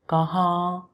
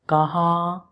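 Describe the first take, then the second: The two takes are said the same way.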